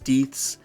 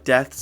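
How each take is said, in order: First: The word is pronounced with an odd vowel. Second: The word is pronounced in the usual way. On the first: The speaker calls it wrong. "as deeths" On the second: The speaker calls it right. "mispronunciation of common words like deaths"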